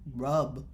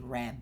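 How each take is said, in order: First: The vowel sounds like the one in cup. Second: The vowel sounds like the one in cat. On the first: The speaker calls it right. "rub is closer to how you say it in Arabic" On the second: The speaker calls it wrong. "if I write a A, I will say rab"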